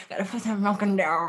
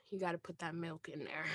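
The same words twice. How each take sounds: First: Lightly mimicking her hushed line; mock imitation. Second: Dropped to a near whisper; hushed aside. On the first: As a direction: parrot her words back, teasing. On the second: Real, not acted. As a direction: say it low and secretive. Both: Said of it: "Why did you say it like that?".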